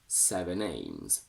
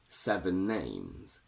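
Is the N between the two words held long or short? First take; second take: short; long. First: The N sound is single and short. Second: The N sound is doubled and held long. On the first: It is heard as seven aims. The speaker calls it wrong. "The second one doesn't have a geminated N" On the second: It is heard as seven names. The speaker calls it right. "The first one has a geminated N"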